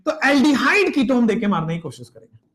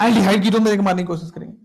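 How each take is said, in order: First: Said in the usual way. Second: Quick recap at speed; fast run-through; fast repeat. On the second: Shown as a demonstration. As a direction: rattle it off quickly. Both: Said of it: "repeated at speed".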